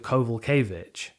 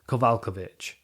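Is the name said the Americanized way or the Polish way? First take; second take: Americanized; Polish. First: The name is said with Americanized pronunciation. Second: The name is said with Polish pronunciation. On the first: "To Americanize it, John Anik calls her" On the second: "It's a Polish name"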